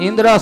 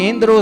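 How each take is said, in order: Both takes have the same delivery.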